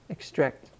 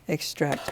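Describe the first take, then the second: First: The stress is on the second syllable. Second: The stress is on the second syllable.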